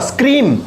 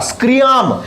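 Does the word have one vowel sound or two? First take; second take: one; two. First: The word has a single vowel sound. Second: The word has two separate vowel sounds. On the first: The speaker calls it right. "स्क्री ई आ रहा है" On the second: The speaker calls it wrong. "लेकिन ए नहीं आ रहा"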